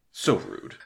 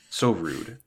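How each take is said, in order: First: "So rude" falling low in deadpan offense; mock offended, falling. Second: Mock offended. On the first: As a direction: drop "So rude" flat and low. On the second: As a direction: lift "So rude" up in fake outrage. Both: Shown as a demonstration.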